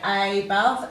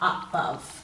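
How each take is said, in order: First: The first vowel is a full long 'ay'. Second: The first vowel is a weak schwa. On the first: This way helps with spelling the word. "you've got a long vowel sound for the A" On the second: This is how people usually say it. "We tend to give it a schwat sound"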